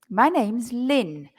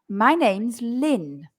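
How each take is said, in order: No difference in how they are said.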